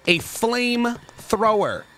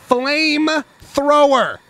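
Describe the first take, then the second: First: Slow, savoring flamethrower; slow relish. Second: Loud, slow, high flamethrower; excited. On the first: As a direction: draw out flamethrower slowly. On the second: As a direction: belt out flamethrower with glee. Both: Real, not acted.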